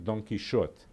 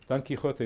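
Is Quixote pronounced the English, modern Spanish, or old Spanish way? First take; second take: old Spanish; modern Spanish. First: The name has an older Spanish pronunciation. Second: The name has a modern Spanish pronunciation. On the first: "in the Spanish of Cervantes' time, it was really Don Quixote" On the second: "Don Quixote is modern Spanish"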